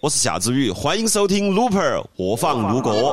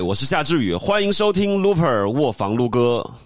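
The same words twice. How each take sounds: First: It is said in Sichuan dialect. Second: It is said in Standard Mandarin.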